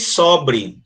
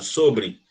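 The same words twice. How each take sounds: First: The first vowel is an open o. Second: The first vowel is a closed o. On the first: It is a form of the verb to be left over. "do verbo sobrar" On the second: It is the preposition meaning about. "Esse O aqui ele é fechado"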